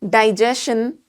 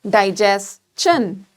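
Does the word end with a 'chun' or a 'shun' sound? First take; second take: shun; chun. First: The ending is said with a 'shun' sound. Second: The ending is said with a 'chun' sound. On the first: The speaker calls it wrong. "And this one here is not digestion" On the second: The speaker calls it right. "this is digestion"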